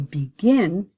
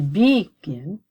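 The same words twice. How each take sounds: First: The stress is on the second syllable. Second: The stress is on the first syllable. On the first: The speaker calls it right. "So I have to double my consonant" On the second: The speaker calls it wrong. "I don't say begin"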